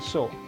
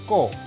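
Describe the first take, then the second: First: The syllable begins with an s sound. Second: The syllable begins with a k sound. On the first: The speaker calls it wrong. "bukan so" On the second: The speaker calls it right. "C O bunyinya K"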